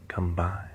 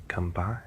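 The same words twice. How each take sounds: The two takes are said the same way.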